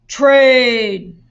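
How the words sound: It is said in a deep, growling voice. "in a monster voice"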